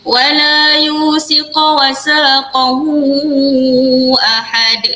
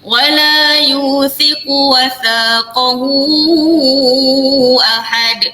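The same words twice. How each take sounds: First: The letter is said with an s sound. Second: The letter is said with a th sound. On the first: The speaker calls it wrong. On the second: The speaker calls it right.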